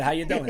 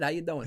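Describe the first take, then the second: First: Said in the usual way. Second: "How you doing?" said through a little laugh, a touch higher; laughing quote. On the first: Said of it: "That's been a whole thread". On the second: Retold or imitated. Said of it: "eh, I probably said".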